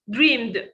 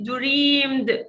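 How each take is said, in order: First: The ending is only a short d sound. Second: The ending is said as an extra syllable. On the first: The speaker calls it right. "only d sound" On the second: The speaker calls it wrong. "Don't say dreamed"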